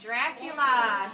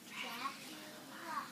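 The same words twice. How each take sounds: First: It is spoken in a normal voice. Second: It is whispered.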